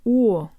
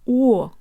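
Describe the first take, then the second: First: The vowel glides open toward ah. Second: The vowel glides open toward ah.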